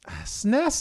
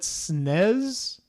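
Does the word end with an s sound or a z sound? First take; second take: s sound; z sound. First: The word ends with a hissing s sound. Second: The word ends with a buzzing z sound. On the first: The speaker calls it right. "is okay" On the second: The speaker calls it wrong. "drives me insane"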